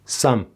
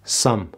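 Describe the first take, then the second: Both takes have the same delivery.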